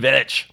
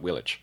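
First: The name begins with a V sound. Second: The name begins with a W sound. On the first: The speaker calls it right. "with a V at the front" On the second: The speaker calls it wrong. "Not Willich"

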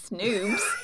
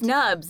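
First: The vowel is a long 'oo' sound. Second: The vowel is a short 'uh' sound. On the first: The speaker calls it wrong. "not snoobs" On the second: The speaker calls it right. "Snubs, not snoobs"

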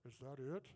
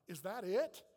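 First: The question is said quietly, held back. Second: The question is said loudly, out loud. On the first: The speaker privately asks without wanting to be noticed. "lean over to my wife Lisa and said, ... Like that" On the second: The speaker openly voices disappointment for everyone to hear. "He says out loud, ... Like that"

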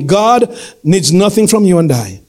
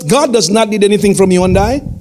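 First: It is said slowly and deliberately. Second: It is said at normal speaking pace.

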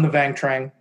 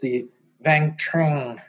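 First: The name is said in a plain accent. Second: The name is said in a southern French accent.

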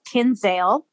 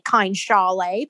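First: The second syllable is said like 'sale'. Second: The second syllable is said like 'shale'. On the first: "which is how I will be pronouncing it" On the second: "It's probably pronounced like Kine Shale"

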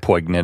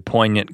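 First: The G sound is pronounced in the word. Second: The G sound is silent in the word. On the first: "I could say poignant if you want me to" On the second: "Did you say the G?"

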